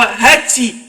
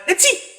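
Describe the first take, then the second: First: A dainty, feminine sneeze sound. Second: A small, childlike sneeze sound. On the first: It is the sneeze of a pretty woman. "عطسه المزز" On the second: It is the sneeze of a little kid. "العطسه بتاعت العيال الصغير"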